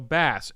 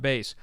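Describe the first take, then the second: First: It sounds like the fish name. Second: It does not sound like the fish name. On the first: The speaker calls it right. "you pronounce uh, his last name like the fish" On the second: The speaker calls it wrong. "not Bass"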